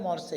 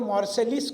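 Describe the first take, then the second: First: It ends on the vowel with no 's' sound. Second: It ends with an added 'lis' sound. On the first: The speaker calls it right. "French उच्चारण मॉर्से है" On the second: The speaker calls it wrong. "French spelling आप करेंगे तो मॉर्सेलिस कहेंगे"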